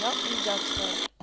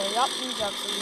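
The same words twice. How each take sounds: First: Yapmayacaksın dragged out slowly, each syllable stressed; firm slow yapmayacaksın, no shouting; slow stern scolding. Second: Said in the usual way. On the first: Real, not acted. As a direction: spell out yapmayacaksın slowly like a warning. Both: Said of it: "Diyor muyum kaç kere?".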